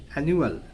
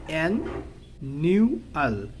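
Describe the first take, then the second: First: Said in the usual way. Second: অ্যানুয়াল slowly broken into an, new, al; syllable by syllable. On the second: Shown as a demonstration. Teacher showing students how to pronounce অ্যানুয়াল, syllable by syllable. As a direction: split অ্যানুয়াল into three separate beats. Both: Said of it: "অ্যানুয়াল উচ্চারণ কি হবে".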